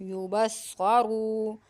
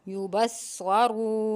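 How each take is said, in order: Both takes have the same delivery.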